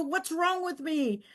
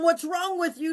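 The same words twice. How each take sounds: First: Slow, softer self-doubt; quietly turning the blame inward. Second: Accusing. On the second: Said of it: "the question went from, What's wrong with you? to". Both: Retold or imitated.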